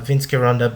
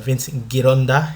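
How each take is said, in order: First: The name is said with American pronunciation. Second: The name is said with Italian pronunciation. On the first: "I'm using an American pronunciation or Western pronunciation" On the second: "if you wish for me to say it correctly"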